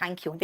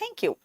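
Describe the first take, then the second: First: Plain Indian "thaank you"; Indian-English pronunciation. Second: High, soft American "thenk you"; exaggerated American vowel, higher and softer; mock American accent. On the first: Shown as a demonstration. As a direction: thank you with an open "thaank". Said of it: "they don't say thank you". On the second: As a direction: imitate an American thank you, pitched up. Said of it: "they say thank you".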